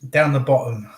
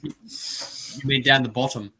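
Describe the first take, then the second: First: Down the bottom with glottal stops; English accent. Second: Down the bottom with clear T's; Australian accent. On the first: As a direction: bottom said bo'om, no T. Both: Shown as a demonstration. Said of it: "No T's".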